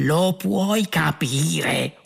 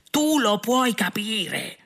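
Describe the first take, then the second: First: Incredulous cry, very drawn out; outraged yell. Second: High, drawn-out incredulous cry; escalating outraged yell. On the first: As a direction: stretch every word in outrage. (urlo indignato, molto strascicato) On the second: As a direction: push it higher and stretch the outrage. (urlo indignato, acuto e strascicato) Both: A narrator's reading. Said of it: "urlò Arthur".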